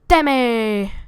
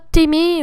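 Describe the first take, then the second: First: The name is said in a cartoon-style accent. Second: The name is said in a plain, ordinary way. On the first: It imitates how a cartoon show says the name. "de la manière de South Park" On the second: This is how the audience usually says the name. "Je sais que vous prononcez ça Timmy"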